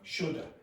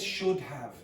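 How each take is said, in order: First: The words blend into one reduced form. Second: Both words are fully pronounced. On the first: The speaker calls it right. "When you're speaking quickly" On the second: The speaker calls it wrong. "nobody says should have"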